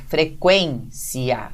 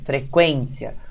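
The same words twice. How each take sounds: First: The final i and a are separate syllables. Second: The final i and a glide together. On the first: "a gente pronuncia o i separado do a" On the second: "a pronúncia pode ser essa que eu fiz mesmo"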